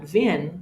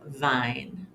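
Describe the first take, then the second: First: The middle vowel is short. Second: The middle vowel is long. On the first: The speaker calls it wrong. "We would say not vin" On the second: The speaker calls it right. "but vine"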